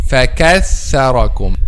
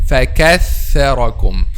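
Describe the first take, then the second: The two takes are said the same way.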